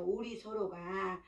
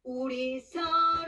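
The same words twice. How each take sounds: First: "우리 서로가" zacht uitgesproken, laag gehouden; zacht en ingetogen. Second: "우리 서로" luider en langzaam gezongen; krachtig gezongen. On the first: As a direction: eerste keer 여리게, zacht. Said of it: "두 번째 나오잖아요". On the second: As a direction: tweede keer 강하게, krachtig. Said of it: "나중에는 강하게". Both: Shown as a demonstration.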